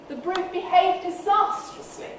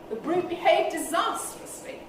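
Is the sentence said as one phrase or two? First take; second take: one; one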